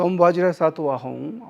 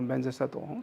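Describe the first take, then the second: First: The second word is pronounced "vajra", Sanskrit style. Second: The second word is pronounced "benza", Tibetan style. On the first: "the Vajra is more like a Sanskrit, you know, the pronunciation" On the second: "in the Tibetan, they say Om Benzer Sattva Hong"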